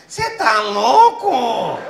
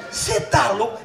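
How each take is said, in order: First: Slow, stretched caricature of the wife; wife's voice. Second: Said in the usual way. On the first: Retold or imitated. Comic retelling his wife scolding him, drawn-out mock voice. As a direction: drawl it out like a nagging wife. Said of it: "É a voz da minha mulher". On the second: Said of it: "Ela nem fala assim".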